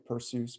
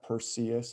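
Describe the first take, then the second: First: The e and u merge into one gliding vowel. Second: The e and u are said as separate vowels. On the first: The speaker calls it right. "E U is a diphthong, like in Zeus" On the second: The speaker calls it wrong. "it's probably not Perseus"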